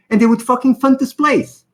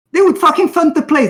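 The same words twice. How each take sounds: First: Said in the usual way. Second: "would" pushed up high, said in disbelief; stress on would. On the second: Real, not acted. Telling viewers the government would fund them, "would" stressed. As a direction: lean hard on "would".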